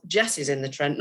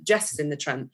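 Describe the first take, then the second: First: "Jess" hit at the front of the chant line; chanted with Jess stressed. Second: "Jess" hit again at the front of the chant; chanted with Jess stressed. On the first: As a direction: Jess pushed forward as the point. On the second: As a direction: lean on Jess, not on we. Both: Shown as a demonstration.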